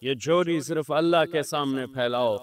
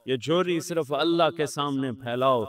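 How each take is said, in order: Both takes have the same delivery.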